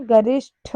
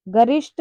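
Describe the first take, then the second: First: गरिष्ठ with puffed ṭha at the end; correct pronunciation. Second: गरिष्ठ with unaspirated ṭ at the end; wrong pronunciation. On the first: Teacher correcting the error, गरिष्ठ with aspirated ṭha. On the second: Teacher showing the error, गरिष्ठ said as garisht. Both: Shown as a demonstration. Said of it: "गरिष्ठ नहीं".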